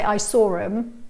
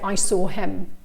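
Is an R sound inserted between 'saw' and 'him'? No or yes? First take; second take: yes; no. First: An R sound links saw and him. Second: No R sound links saw and him. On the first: The speaker calls it right. "much more natural to say" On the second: The speaker calls it wrong. "it just takes me longer to say that"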